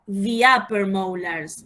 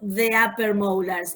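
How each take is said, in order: First: 'The' has a long 'ee' vowel. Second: 'The' has a short, weak 'uh' vowel. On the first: The speaker calls it right. "it's the upper molars" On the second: The speaker calls it wrong. "remember it is not the upper molars"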